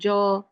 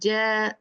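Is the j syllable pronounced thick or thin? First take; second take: thick; thin. First: The syllable is heavy and thick. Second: The syllable is light and thin. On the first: The speaker calls it wrong. "not jaw" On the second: The speaker calls it right. "While Jim is not a heavy letter"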